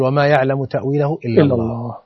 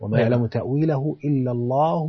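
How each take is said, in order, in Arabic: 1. يقف الصوت وقفًا تامًا بعد 'Allah'. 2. يمضي الصوت بعد 'Allah' دون توقف. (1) "يقف على لفظ الجلالة" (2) "فيجوز الوصف"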